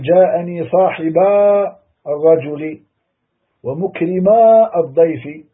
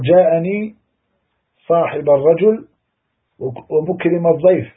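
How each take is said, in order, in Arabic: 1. تُنطق ألف المثنى الطويلة بصوت مسموع. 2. تُحذف ألف المثنى الطويلة في النطق. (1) "لو نطقنا بها ... غير صحيح" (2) "تقول"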